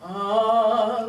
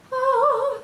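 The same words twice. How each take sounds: First: Louder, lower oh; low note oh. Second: Much higher, louder oh; high note oh. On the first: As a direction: drop the oh down low. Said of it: "lower notes sound". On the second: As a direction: pop a high oh. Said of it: "higher notes ... sound like that". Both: Shown as a demonstration.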